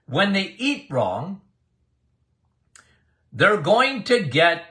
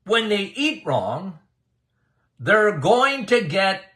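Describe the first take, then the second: No difference in how they are said.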